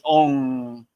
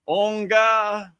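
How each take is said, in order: First: The word ends on a plain nasal sound. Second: The word ends with an added 'ga' syllable. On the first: The speaker calls it right. "It's on with the N" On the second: The speaker calls it wrong. "Onga just it doesn't sound right"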